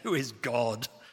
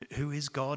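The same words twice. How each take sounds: First: It is asked with contempt. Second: It is asked winsomely.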